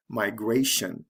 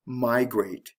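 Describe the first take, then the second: First: "migration" stressed mi-GRA-tion; stress on second syllable. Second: "migrate" stressed MI-grate; stress on first syllable. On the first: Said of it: "it has to shift to the second syllable". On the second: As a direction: punch MI in "migrate". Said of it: "The stress is on the first syllable". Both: Shown as a demonstration.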